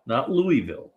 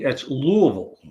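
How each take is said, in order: First: Louisville said "Loo-ee-vil" with every syllable spelled out; Louisville as "Loo-ee-vil", the wrong way; wrong pronunciation. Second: Louisville said "Luh-vul" in two short syllables; Louisville as "Luh-vul", the Kentucky way; local pronunciation. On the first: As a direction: say Louisville the outsider's way. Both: Shown as a demonstration.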